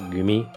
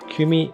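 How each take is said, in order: First: The word begins with a voiced g sound. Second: The word begins with a voiceless k sound. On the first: "you pronounce it gumi because it c- comes after an existing word" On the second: "kumi is like a group of people"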